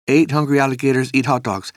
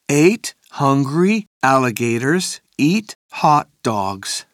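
First: It is said very fast. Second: It is said at a normal speed.

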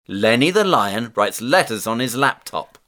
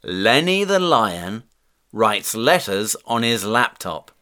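First: The sentence is spoken at a fast pace. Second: The sentence is spoken at a moderate pace.

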